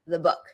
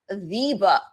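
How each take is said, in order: First: 'The' is unstressed with a schwa vowel. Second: 'The' is stressed with a full vowel. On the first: It refers to a book in general. "before a consonant, you'll hear a schwa" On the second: It refers to one specific, well-known book. "unless I'm emphasizing"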